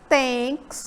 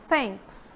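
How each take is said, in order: First: It begins with a plain T sound. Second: It begins with a breathy tongue-between-teeth sound. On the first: The speaker calls it wrong. "você não fala thanks como som de T" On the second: The speaker calls it right. "prender um pouquinho a língua entre os dentes"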